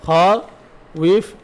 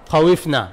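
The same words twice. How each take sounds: First: খউইফ stretched very slowly, sound by sound; খউইফ held long with every letter separate; slow spelled-out form. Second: Said in the usual way. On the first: Shown as a demonstration. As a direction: draw out খউইফ for the class. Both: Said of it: "খিফনা মূলত ছিল খউইফনা".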